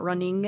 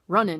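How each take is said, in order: First: The word ends with the full 'ing' sound. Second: The word ends with 'in', the G dropped. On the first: The speaker calls it wrong. "it's not running" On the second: The speaker calls it right. "The G is cut off"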